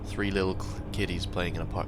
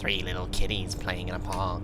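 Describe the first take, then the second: First: It is read in a normal voice. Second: It is read in a weird put-on voice.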